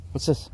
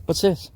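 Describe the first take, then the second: First: Higher, coaxing question; teasing the dog. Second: Much higher and louder, building excitement; more excited teasing. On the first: Owner holding up a treat to the dog, coaxing. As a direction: tempt her with the treat. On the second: Owner getting the dog excited about a treat, high and loud. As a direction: wind her up over the treat. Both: Real, not acted.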